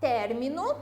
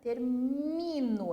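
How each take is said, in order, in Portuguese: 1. O acento está na primeira sílaba. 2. O acento está na segunda sílaba. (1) "E na primeira, obviamente, é ter" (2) "aqui a minha sílaba tônica, termino, é o mi"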